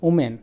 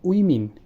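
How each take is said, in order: First: It is said in a local Bengali style. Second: It is said in a native English style. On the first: The speaker calls it wrong. "আমরা বলি" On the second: The speaker calls it right. "এটা হবে"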